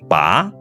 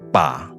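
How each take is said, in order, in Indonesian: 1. Nadanya naik dari tengah ke tinggi. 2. Nadanya turun ke rendah lalu naik. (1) "Bunyi kedua" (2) "Bunyi ketiga"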